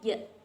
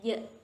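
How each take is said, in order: No difference in how they are said.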